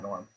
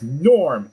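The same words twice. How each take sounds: First: The name is said flatly, without excitement. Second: The name is said excitedly, like an exclamation.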